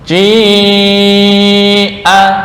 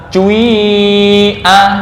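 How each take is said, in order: First: The first vowel is a plain i sound. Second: The first vowel starts as u, then becomes i.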